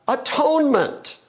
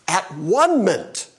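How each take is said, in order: First: The middle sounds like the word 'tone'. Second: The middle sounds like the word 'one'. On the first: The speaker calls it wrong. "we have mispronounced it as atonement" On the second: The speaker calls it right. "Jesus accomplished at one-ment"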